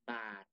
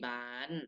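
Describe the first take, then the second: First: The final syllable has a low tone. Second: The final syllable has a high tone. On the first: "ไม้เอก" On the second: "ไม้ตรี"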